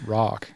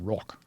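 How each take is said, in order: First: It is said with an American accent. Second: It is said with an Australian accent. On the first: "the way you guys say rock is rock" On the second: "We say fucking rock"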